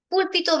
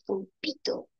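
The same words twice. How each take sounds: First: "Púlpito" stressed on the first syllable, PÚL-pi-to, high and loud; acento esdrújulo. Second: "pulpito" said slowly with stress on the middle syllable, pul-PI-to; diminutivo, acento grave. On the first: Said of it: "es esdrújula". (decir "Púlpito" como esdrújula, con PÚL agudo y fuerte) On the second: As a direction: stretch it as pul-PI-to, "pulpito" like a little octopus. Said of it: "el diminutivo de pulpo". (decir "pulpito" lento, como diminutivo, con fuerza en PI) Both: Shown as a demonstration.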